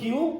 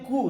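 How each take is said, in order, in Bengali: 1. এটি kyoo-এর মতো শোনায়, y-glide সহ। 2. এটি koo-এর মতো শোনায়, কোনো y-glide নেই। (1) "নন কিউ" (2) "এর নাম হচ্ছে কু"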